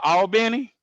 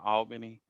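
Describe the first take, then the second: First: Albany is pronounced the way locals say it. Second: Albany is pronounced the way outsiders say it. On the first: The person saying it is from Georgia. "then they from here" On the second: The person saying it is not from Georgia. "then you they probably not from here"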